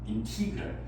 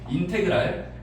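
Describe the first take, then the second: First: The second syllable has an 'ee' vowel. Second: The second syllable has an 'eh' vowel. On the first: "인티그랄이라고 읽어야 되는 게 맞대요" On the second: "인테그랄이라고 콩글리시로 읽겠습니다"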